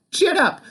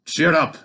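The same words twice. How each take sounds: First: Put-on much higher baby voice; huge baby. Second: Said in the usual way. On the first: A narrator's reading. Finn in the cradle as baby, high babyish chirp. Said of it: "said the huge baby". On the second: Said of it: "said the".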